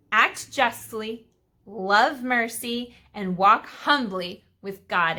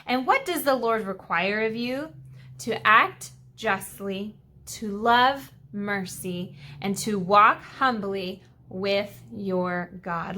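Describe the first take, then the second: First: Slow, pointed reread of each virtue; slow emphatic rereading. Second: Slow and deliberate, each phrase given weight; slow, weighty reading. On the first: Teacher rereading the verse to drive it home. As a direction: hammer home each phrase slowly. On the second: Teacher reading scripture slowly to the kids. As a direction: lay out each virtue slowly for the class. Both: Shown as a demonstration. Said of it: "Let me read that again".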